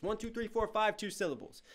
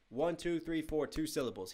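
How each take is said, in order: First: "One, two, three, four, five" run on at a high pitch, then "two syllables" falling; high running count on "One, two, three, four, five", landing on "two syllables"; stretched-out count. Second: "One, two, three, four" counted evenly, softly, then "two syllables" dropping; "One, two, three, four" as a steady count before "two syllables"; regular count. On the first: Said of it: "He might go one". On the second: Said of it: "he doesn't go like one". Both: Shown as a demonstration.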